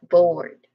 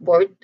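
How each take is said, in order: First: The vowel is a long O sound. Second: The vowel is short, not a long O. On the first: The speaker calls it right. "There's a long O vowel sound here" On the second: The speaker calls it wrong. "So it's not board"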